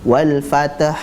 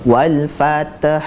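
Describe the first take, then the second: Both takes have the same delivery.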